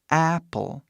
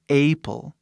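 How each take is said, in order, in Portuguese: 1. A primeira vogal é o som do 'a' em inglês. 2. A primeira vogal é uma vogal diferente, não inglesa. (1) "Esse A que está aqui é corretamente pronunciado apple" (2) "não apple"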